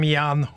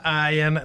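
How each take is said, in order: First: The name begins with a 'y' sound. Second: The name begins with an 'ah' sound. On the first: "nem ján" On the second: "helyes kiejtése nem ájen"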